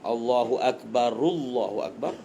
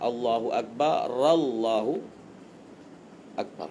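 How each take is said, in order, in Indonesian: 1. Akbar pertama berakhir dengan u, lalu disambung. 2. Akbar pertama berakhir dengan a, lalu disambung. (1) "yang kedua kita baca dengan rafa'" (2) "Yang ketiga kita baca dengan fatah"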